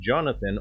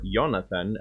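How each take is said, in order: First: The name is said with an English pronunciation. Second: The name is said with a Swedish pronunciation.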